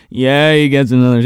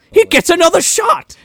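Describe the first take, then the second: First: Said in the usual way. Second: High mock voice. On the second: Shown as a demonstration.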